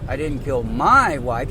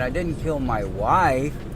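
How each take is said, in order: First: The stress falls on the word my. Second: The stress falls on the word wife. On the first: Someone else's wife was killed. "You killed somebody else's wife" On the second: Someone other than the wife was killed. "Well, then who did you kill?"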